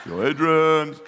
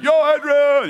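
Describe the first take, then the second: First: "Yo, Adrian" with the weight on "Adrian", louder and laughing; hammed-up Rocky, punching "Adrian"; stress on Adrian. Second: "Yo" shouted much higher and louder, then "Adrian"; hammed-up Rocky yelling "Yo, Adrian"; stress on YO. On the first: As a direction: lean into "Adrian" in a mock Rocky voice. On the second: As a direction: belt out the "Yo" like a call across the street. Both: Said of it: "wherever you put the emphasis".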